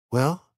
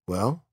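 First: Put-on girl's questioning voice. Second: Montag's questioning voice. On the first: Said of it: "she said". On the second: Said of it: "he said". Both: A narrator's reading.

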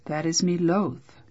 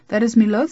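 First: Said in the usual way. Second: Loud, higher knight's archaic line; stagey fake archaic declaiming. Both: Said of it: "that is me loath" means "I am reluctant".

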